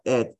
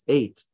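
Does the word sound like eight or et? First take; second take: et; eight. First: The word has a short vowel, like 'et'. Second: The word has a long vowel, like 'eight'. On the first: The speaker calls it wrong. "it's not et" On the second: The speaker calls it right. "it's eight"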